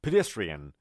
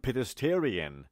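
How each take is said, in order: First: Pedestrian said correctly, stress on -des-; teacher's corrected pedestrian; correct pronunciation. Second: Pedestrian said the way many learners wrongly say it; common mispronunciation. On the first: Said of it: "نه، ببینید". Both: Shown as a demonstration.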